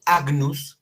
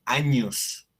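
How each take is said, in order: First: Agnus said "AG-nus"; wrong reading. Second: Agnus said "A-ñus"; correct Latin pronunciation. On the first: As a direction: sound g and n apart in agnus. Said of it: "en lugar de decir agnus". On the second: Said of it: "se dice agnus". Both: Shown as a demonstration.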